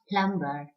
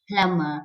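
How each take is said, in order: First: The b is pronounced. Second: The b is silent. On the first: The speaker calls it wrong. "and not plumber" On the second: The speaker calls it right. "The B is silent"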